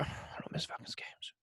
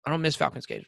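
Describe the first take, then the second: First: Hushed, voiceless, slow aside; whispered repeat. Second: Said in the usual way. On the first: Real, not acted. Fan insisting to co-host he never skips a game, whispered. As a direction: whisper it slowly under your breath. Repeats it under his breath.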